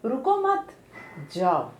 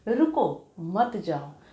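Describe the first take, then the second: First: There is a pause after the second word. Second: There is a pause after the first word. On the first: Do not stop, go. "अब यहाँ पे मैंने कहा रुको मत, फिर मैंने चिन्ह लगा दिया" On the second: Stop, do not go. "रुको के बाद मैंने अपने शब्दों में ठहराव लाने के लिए चिन्ह लगाया"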